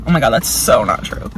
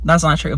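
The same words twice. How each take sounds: First: Deep mock voice. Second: Said in the usual way. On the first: Real, not acted. Second self-correction, voice dropped low.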